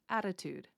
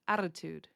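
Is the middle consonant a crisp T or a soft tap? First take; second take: soft tap; soft tap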